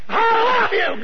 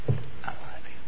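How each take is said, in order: First: It is said loudly and forcefully. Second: It is said softly and gently. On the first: The speaker calls it wrong. "I wouldn't say" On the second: The speaker calls it right. "some things ought to be said soft"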